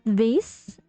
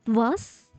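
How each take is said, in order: First: The vowel sounds like 'ay'. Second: The vowel sounds like 'ah'. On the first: The speaker calls it wrong. "It's not vase" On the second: The speaker calls it right. "but was"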